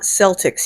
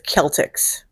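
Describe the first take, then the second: First: The word begins with a soft S sound. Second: The word begins with a hard K sound. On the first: The speaker calls it wrong. "It's not Celtics" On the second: The speaker calls it right. "C is their K sound"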